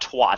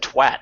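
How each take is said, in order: First: The word has a British-style vowel. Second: The word has an American-style vowel. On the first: "not twat" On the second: "She actually said twat, ... she Americanized it"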